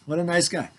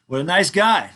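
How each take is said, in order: First: Said in the usual way. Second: Louder, ironic praise; mock praise. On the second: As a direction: cheer himself on with mock admiration.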